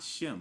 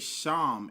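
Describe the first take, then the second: First: The vowel sounds like 'eh'. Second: The vowel sounds like 'ah'. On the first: The speaker calls it wrong. "not Shem, because Shem, that's Yiddish" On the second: The speaker calls it right. "let's make sure we say Sham"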